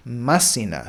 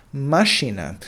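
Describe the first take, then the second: First: "Mașină" said with a plain s and a full final a, ma-si-na; plain s sound. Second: "Mașină" said with a clear sh, ma-SHI-nă; sh sound. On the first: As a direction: say "Mașină" without the sh, ending in an open a. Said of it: "you lose the sh and you lose the uh". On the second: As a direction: say "Mașină" with the ș as English sh. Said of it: "that is an S H sound". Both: Shown as a demonstration.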